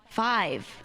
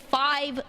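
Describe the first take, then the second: First: The word is said in a plain, neutral accent. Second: The word carries a strong inherited regional accent. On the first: The speaker calls it right. "Got around it" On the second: The speaker calls it wrong. "I pronounced that kind of like my mother"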